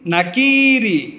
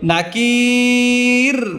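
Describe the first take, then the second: First: The word ends with a final i vowel. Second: The word ends on the r consonant.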